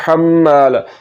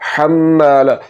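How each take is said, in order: Both takes have the same delivery.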